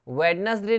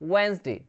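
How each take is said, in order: First: The d sound is pronounced in the word. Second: The d sound is left out of the word. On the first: The speaker calls it wrong. "वेडनेसडे नहीं बोलते इसको" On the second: The speaker calls it right. "वेंसडे बोलते हैं, डी silent रहता है"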